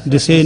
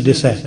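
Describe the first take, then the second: First: ਦਿਸੇ ending in a closed "say" vowel; e-ending misreading. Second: ਦਿਸੈ ending in an open "sae" vowel; open final vowel. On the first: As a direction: end ਦਿਸੇ on a narrow e. (ਦਿਸੇ, ਇੱਕ ਲਾਂ ਨਾਲ) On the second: (ਦਿਸੈ, ਦੁਲਾਵਾਂ ਨਾਲ) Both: Shown as a demonstration. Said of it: "ਦਿਸੇ ਨਹੀਂ".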